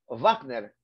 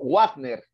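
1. El nombre empieza con sonido de V. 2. El nombre empieza con sonido de W. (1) "No suena así, al estilo inglés, sino BF" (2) "escucho a mis colegas que dicen"

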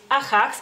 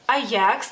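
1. La j es un sonido gutural raspado. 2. La j no es un sonido gutural raspado. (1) "aquí en México dicen Ajax" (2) "en el lituano decimos Ajax"

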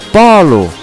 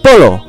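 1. A primeira vogal é aberta e a vogal final é fraca. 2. As duas vogais têm o mesmo som de o pleno. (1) "a primeira sílaba tem uma vogal, tem uma pronúncia aberta, e a segunda é bem fraco" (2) "A pronúncia da letra O é O, tanto na primeira sílaba, PO, como na segunda sílaba, LO"

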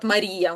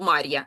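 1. Наголошена і утворює окремий склад. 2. І та а зливаються в один склад. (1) "Там на і падає наголос" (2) "бо іначе було б Мар'я"

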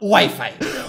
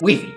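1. La palabra se pronuncia con sonidos ingleses. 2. La palabra se pronuncia con sonidos españoles. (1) "no Wi-Fi" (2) "La pronunciación de Wi-Fi es Wi-Fi"

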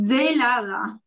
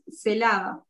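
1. Il cognome si pronuncia alla maniera locale. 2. Il cognome si pronuncia alla maniera argentina. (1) "acá yo lo tuve que cambiar, porque no es Celada, sino que es Zelada" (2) "en Argentina es Celada"

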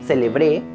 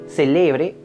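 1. El acento está en la última sílaba. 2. El acento está en la sílaba del medio. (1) "Con el acento en la última sílaba" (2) "Si el acento está en la penúltima sílaba"

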